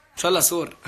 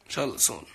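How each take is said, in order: First: سور read literally as "soor" with an r at the end, a bit louder; misreading aloud. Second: سون said as English "soon", long oo, no r; correct word. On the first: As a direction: read the typo سور as written, with an r. (قراءة "سور" حرفياً بالراء كما كُتبت) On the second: (نطق "سون" كالكلمة الإنجليزية soon) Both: Shown as a demonstration. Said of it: "إنه سون".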